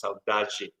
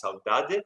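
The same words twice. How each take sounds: First: Saudade ending in "jee"; softened final D. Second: Saudade ending in a clear "de"; hard final D. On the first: Showing another region's pronunciation, saudade with a "jee" ending. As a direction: say saudade as "sow-DAH-jee", last d softened. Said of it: "somewhere else it's pronounced saudade". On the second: Showing a regional Brazilian pronunciation, saudade with a hard "de". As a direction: say saudade with a plain hard d in the last syllable. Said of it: "it's pronounced saudade". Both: Shown as a demonstration.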